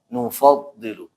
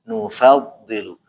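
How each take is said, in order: First: The f syllable is heavy and velarized. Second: The f syllable is light, not velarized. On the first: The speaker calls it wrong. "bukan nufaddilu" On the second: The speaker calls it right. "Jadi dibaca nufa nufaddilu"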